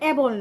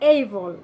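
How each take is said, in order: First: The first vowel is a plain 'eh' sound. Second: The first vowel glides like 'ay'. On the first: The speaker calls it wrong. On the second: The speaker calls it right.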